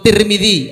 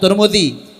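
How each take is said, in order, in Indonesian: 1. Dua vokal pertama bukan berbunyi u. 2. Dua vokal pertama keduanya berbunyi u. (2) "Kalau mau awalnya dhammah, habis itu dhammah juga"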